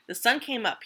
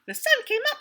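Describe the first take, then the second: First: Said in the usual way. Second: Much higher, chirpy squirrel voice; chirped. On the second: Acted. Happy squirrel chirping at sunrise, very high. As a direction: chirp it like a tiny excited squirrel. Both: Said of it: "he chirped".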